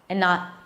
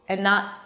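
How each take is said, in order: No difference in how they are said.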